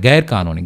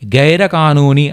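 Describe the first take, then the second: First: The r of gair ends bare, no vowel. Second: A vowel follows the r of gair. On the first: The speaker calls it right. "ర్ ర్ అని పలుకుతాం" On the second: The speaker calls it wrong. "గైర కానూనీ అనకూడదనమాట"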